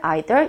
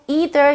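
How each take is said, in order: First: It is said in a British accent. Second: It is said in an American accent. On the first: "호주나 이제 영국 분들은 ... 이런 식으로 I라는 어, 액센트를 쓰죠" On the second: "미국의 성우, 캐나다의 성우는 보통 either 이렇게 발음을 합니다"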